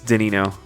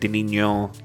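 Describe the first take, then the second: First: The name is said with an American English pronunciation. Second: The name is said with a Portuguese pronunciation. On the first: "I'm speaking English and uh, with my with my uh, American accent, so it's Danino" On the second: "since it's a, it's I think it's like Brazil, so it's Portuguese. I think the N H is a is a nil instead of a no"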